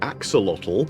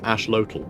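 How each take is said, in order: First: The x is sounded as ks. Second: The x is sounded as sh. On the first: The speaker calls it wrong. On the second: The speaker calls it right. "it's Ashlotl"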